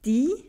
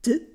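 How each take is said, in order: First: The article is said in its full form. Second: The article is shortened to a single sound. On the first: This is the Standard German form. "die wird zu d" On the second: This is the Swiss German form. "wird zu d"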